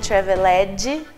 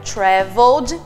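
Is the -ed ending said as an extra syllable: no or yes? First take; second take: yes; no. First: The ending is said as an extra syllable. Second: The ending joins the word with no extra syllable. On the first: The speaker calls it wrong. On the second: The speaker calls it right.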